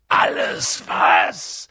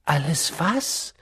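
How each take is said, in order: First: Low, slow, rough giant's roar; thundering. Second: Said in the usual way. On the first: A narrator's reading. Giant throws the boy's question back, thundering. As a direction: thunder it back, drawn out and deep. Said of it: "donnerte Hagrid". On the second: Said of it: "fragte Harry".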